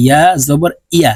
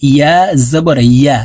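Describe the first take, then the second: First: Last ইয়া said as a quick i-a without y glide; quick wrong take of ইয়া; ya mispronounced as hamza. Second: Last ইয়া with a full held y glide, "yya"; careful right take of ইয়া; correct ya. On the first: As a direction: common mistake, hamza in place of y in ইয়া. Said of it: "ইয়ার উচ্চারণ হামজার উচ্চারণ করে থাকি". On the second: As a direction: say ইয়া with a clear y from the mid tongue. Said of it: "বলতে হবে". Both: Shown as a demonstration.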